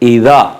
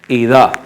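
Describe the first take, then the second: First: The middle consonant is a soft 'dh' sound. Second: The same.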